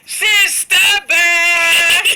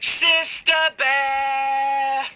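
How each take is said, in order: First: It is called at the loudest volume. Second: It is called at a moderate volume.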